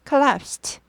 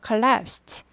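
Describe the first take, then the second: First: The ending is a voiceless t sound. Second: The same.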